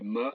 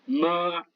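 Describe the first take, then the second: First: The syllable is short and light, without contour. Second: The pitch stays high and level. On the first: It marks a question. "cinquième ton, neutre" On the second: It means mother. "Premier ton, c'est un accent plat"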